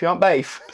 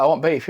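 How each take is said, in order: First: "beef" said as "bayf"; Barnsley pronunciation. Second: Said in the usual way. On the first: Acted. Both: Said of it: "it's like trying to order beef".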